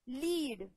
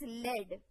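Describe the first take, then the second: First: The vowel is long, as in 'seed'. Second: The vowel is short, as in 'bed'. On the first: It means to guide, now. "लीड, I am leading the class" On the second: It means guided, in the past. "You can pronounce it as लेड"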